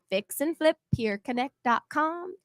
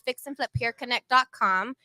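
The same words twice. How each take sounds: First: It is said slowly and more loudly. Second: It is said quickly and more quietly.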